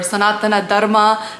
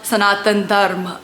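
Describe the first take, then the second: First: The first word ends with an a vowel. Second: The first word ends without a final vowel. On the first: This follows the speaker's Tamil habit. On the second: This is how others expect it said.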